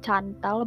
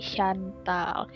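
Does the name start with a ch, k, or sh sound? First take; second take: ch; sh. First: The name begins with a ch sound. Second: The name begins with an sh sound. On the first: The speaker calls it wrong. "Bukan Cantal" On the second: The speaker calls it right. "tapi Shantal"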